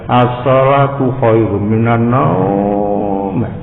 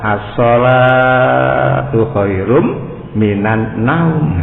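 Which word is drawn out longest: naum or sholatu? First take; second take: naum; sholatu. First: The word naum is drawn out long. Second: The word sholatu is drawn out long. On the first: Sleep gets more weight than prayer. "as-sholahnya pendek namun naumnya panjang" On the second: Prayer gets more weight than sleep.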